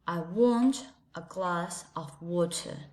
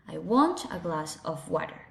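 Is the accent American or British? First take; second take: British; American. First: It is said in a British English accent. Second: It is said in an American English accent. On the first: "And with a British English" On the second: "In American English"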